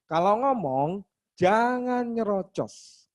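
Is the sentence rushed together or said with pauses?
with pauses. It is said slowly with pauses between words. The speaker calls it right. "ada jedanya"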